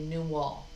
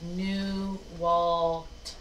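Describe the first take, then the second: First: The name ends without any T sound. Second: The name ends with a clear T sound. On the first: This is how native speakers say it. The speaker calls it right. "in the native language, they don't say the T" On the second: This is the English way of saying it. The speaker calls it wrong. "So in English, we would say New Walt, New Walt, because the T is there"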